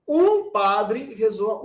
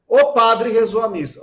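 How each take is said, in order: First: "um" drawn out long and high; stress on UM. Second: "O" hit loud and high at the start; stress on O. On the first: Teacher contrasting the indefinite article, stress on "um". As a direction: stretch the article "um" slowly before padre. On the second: Teacher showing the definite article, stress on "O". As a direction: punch the article "O" before padre. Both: Shown as a demonstration. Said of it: "Ou se eu falo assim".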